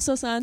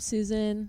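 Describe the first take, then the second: First: The name is said the traditional Afghan way. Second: The name is said the everyday English way. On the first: This is the traditional heritage form of the name. "you can call me Sosan if you want to be traditional Afghan" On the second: This is the official everyday form of the name. "my government name"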